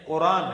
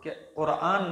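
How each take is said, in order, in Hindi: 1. इस शब्द में r के बाद ग्लोटल स्टॉप नहीं है। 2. इस शब्द में r के बाद ग्लोटल स्टॉप है। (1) "वो कहते हैं कि कुरान है" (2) "वो कुरान नहीं कहते"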